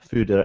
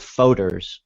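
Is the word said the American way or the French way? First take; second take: French; American. First: It is said with a French-style pronunciation. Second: It is said with an American pronunciation. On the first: The speaker calls it right. "It's a sort of French word" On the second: The speaker calls it wrong. "Americans call them foders, which is not how you say it"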